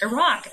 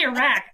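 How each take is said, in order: First: "Iraq" ending like "rock"; first variant of Iraq. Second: "Iraq" ending like "rack"; second variant of Iraq. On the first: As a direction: say "Iraq" with an ah in the last syllable. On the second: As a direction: say "Iraq" with a short a, as in back. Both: Shown as a demonstration. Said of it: "It can be either way".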